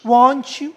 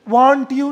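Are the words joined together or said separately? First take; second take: joined; separate. First: The words run together in connected speech. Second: Each word is said separately and fully. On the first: The speaker calls it right. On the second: The speaker calls it wrong.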